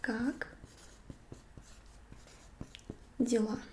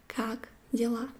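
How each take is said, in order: First: "Как", then a long pause, then "дела"; split slow. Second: Said in the usual way. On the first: Shown as a demonstration. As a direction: cut "Как дела" into two slow parts. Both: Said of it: "it's going to be".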